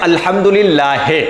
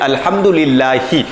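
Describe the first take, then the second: First: The vowel is pronounced in the majhool style. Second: The vowel is pronounced in the maroof style. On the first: The speaker calls it wrong. "इसको पढ़ देते हैं" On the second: The speaker calls it right. "अल्हम्दुलिल्लाहि पढ़ना चाहिए"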